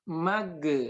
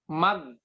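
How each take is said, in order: First: The final consonant is released with a bounce. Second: The final consonant is stopped dead, no release. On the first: "Yang kedua dipantulkan" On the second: "jangan diucapkan mag. Ya, mentok"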